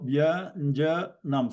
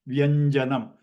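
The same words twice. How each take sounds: First: Vyanjanam slowly split as vya-nja-nam; teacher slowly breaking Vyanjanam into its syllables. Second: Said in the usual way. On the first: Shown as a demonstration. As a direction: sound out Vyanjanam in three slow, separate syllables. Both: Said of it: "it has a three syllables".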